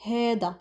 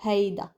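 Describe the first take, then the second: First: "هيدا" as "HEH-da", no glide; single eh vowel in "هيدا"; variant pronunciation. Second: "هيدا" as "HAY-da", with a glide; usual Lebanese form. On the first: Teacher contrasting two Lebanese forms, "heda" variant. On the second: Teacher citing the common form, "hayda" pronunciation. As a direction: clear "ay" diphthong in "هيدا". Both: Shown as a demonstration. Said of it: "instead of هيدا".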